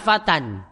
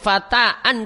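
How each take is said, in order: First: The word ends directly in -tan, without an extra syllable. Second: The word has an extra vowel syllable before -an. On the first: The speaker calls it right. "Pengucapan alif tidak ada di sini" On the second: The speaker calls it wrong. "Tidak kita sebut fata'an, tidak"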